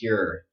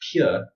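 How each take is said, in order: First: It is said in an American accent. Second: It is said in a British accent. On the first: "But for me, this is pure" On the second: "if you say this in the British accent, it would be like this"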